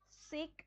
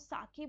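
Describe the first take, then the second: First: It is said as one syllable, like sayk. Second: It is said as two syllables, like saa-keh. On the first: The speaker calls it wrong. "आप इसको सेक नहीं बोल सकते" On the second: The speaker calls it right. "इसको साके बोलेंगे"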